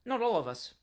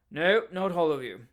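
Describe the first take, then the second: First: Said in the usual way. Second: "No, not all of you" hit hard and louder on "No"; emphatic. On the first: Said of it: "said Mister Pickwick". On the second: Acted. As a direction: stress "No" and "not" like a stubborn man. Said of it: "said the strange man emphatically".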